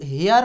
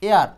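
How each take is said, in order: First: The word starts with an h sound. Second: The word starts directly with a vowel. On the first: The speaker calls it wrong. "এইটা কিন্তু হেয়ার না" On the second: The speaker calls it right. "এটার উচ্চারণটা কি? এয়ার।"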